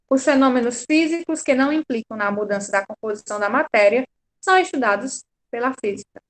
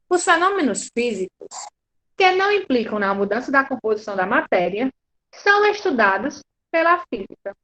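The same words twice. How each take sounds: First: The sentence is read smoothly without inner pauses. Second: The sentence is read slowly with pauses inside.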